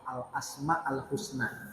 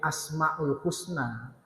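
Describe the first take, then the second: First: Both words begin with the article al. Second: Only the second word begins with al. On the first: The beautiful, praiseworthy names. The speaker calls it right. "Kalau nyebut yang benar itu pakai al semua" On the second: The names belonging to someone called Husna. The speaker calls it wrong. "itu maknanya nama-namanya si Husna"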